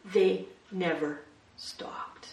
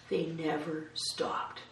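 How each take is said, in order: First: Slow breathy whisper of the phrase. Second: Softly, letting each word land slowly; hushed and slow, for weight; slow quiet repeat. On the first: Preacher whispering the sermon's one point to the congregation. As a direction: whisper it like a secret. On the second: Preacher to congregation, a slow quiet repeat. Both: Acted.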